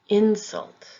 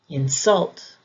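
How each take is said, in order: First: The stress is on the first syllable. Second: The stress is on the second syllable. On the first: It is used as a noun. "If the word is being used as a noun, the emphasis will be on the first syllable" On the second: It is used as a verb. "If the word is being used as a verb, the emphasis will be on the second syllable"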